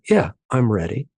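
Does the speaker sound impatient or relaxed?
relaxed. It sounds calm, open and unhurried. The person is genuinely ready to talk. "their tone of voice, the rate of their words matches"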